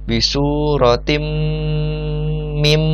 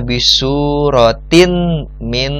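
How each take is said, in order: First: The n merges into a nasalized m. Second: The n is kept clear before the m. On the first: The speaker calls it right. "ada dengung nih, makanya bacanya adalah bisuratim" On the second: The speaker calls it wrong. "kita tidak membacanya bisuratin min misli, bukan seperti itu"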